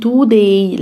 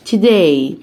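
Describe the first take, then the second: First: "today" with a long TOO at the start; mispronounced TODAY. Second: "today" with a short, reduced first syllable, t'-DAY; correct TODAY. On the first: Teacher shows learners the mistake, "today" as too-day. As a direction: say "today" as too-day, stretching the first vowel. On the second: Teacher models "today" for learners, correctly reduced first syllable. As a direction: say "today" as tuh-day, not too-day. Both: Shown as a demonstration. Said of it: "محدش يقول today، لا".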